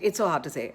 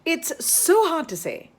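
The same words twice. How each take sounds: First: The pitch stays flat across the phrase. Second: The pitch moves expressively across the phrase. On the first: The words carry no meaning. The speaker calls it wrong. "Uh, no, rubbish" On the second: The words carry their meaning. The speaker calls it right. "So intonate, put meaning when you're saying tongue twisters"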